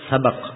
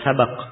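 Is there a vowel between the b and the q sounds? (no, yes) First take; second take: no; yes. First: The b is followed directly by the q. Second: The b is followed by an a vowel. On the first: "dengan disukun ba'nya" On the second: "membolehkan di fathah"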